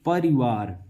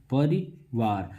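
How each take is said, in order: First: Said in the usual way. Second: परिवार said very slowly, each syllable drawn out; slow, drawn-out word. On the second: Shown as a demonstration. Teacher showing students the word, drawn out slowly. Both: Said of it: "देखिए परिवार".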